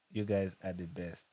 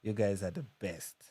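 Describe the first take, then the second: No difference in how they are said.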